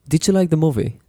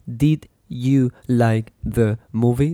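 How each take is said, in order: First: It is said fast, with the words run together. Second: It is said slowly, each word kept separate. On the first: The speaker calls it right. "they speak really fast. ... They say" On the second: The speaker calls it wrong. "They don't say"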